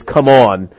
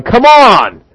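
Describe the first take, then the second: First: Said in the usual way. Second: Loud, high call-out as James; exasperated urging. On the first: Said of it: "so I'm having this". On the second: Acted. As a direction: burst out at slow listeners. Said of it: "James is standing here going".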